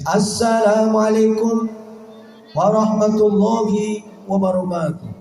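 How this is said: It sounds mournful, like announcing a death.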